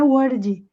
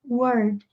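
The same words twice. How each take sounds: First: It is said with a Portuguese-style pronunciation. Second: It is said with an English pronunciation. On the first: The speaker calls it wrong. "não é word" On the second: The speaker calls it right. "Mas aqui é word"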